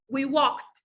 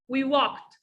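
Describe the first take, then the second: The two takes are said the same way.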